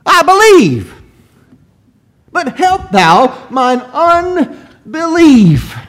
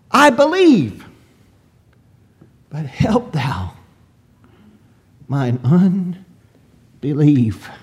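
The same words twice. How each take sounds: First: High, loud, drawn-out plea; tearful crying out. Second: Brutally honest confession. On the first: Father begging the Lord for help, crying out in anguish. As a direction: cry it out as a desperate father begging. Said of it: "This man cried out, and in his tears". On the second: Father admitting his doubt to the Lord, honest confession. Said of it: "he's very brutally honest". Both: Acted.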